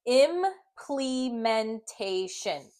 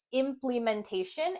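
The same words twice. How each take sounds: First: Very slow, syllable by syllable "Implementation"; sounding out slowly. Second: Said in the usual way. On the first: Shown as a demonstration. Teacher sounding out the word for students, very slowly. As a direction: stretch out each syllable. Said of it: "And I'm gonna blend it". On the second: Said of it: "when you say it quickly".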